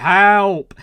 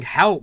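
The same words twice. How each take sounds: First: Loud shouted "Help!"; mock shout for help; imitated shout. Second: Lightly imitated shout for help; mild mock shout. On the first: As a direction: yell "Help!" as if calling for rescue. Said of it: "like, shouting". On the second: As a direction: echo the cry for "Help," more lightly. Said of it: "he was shouting".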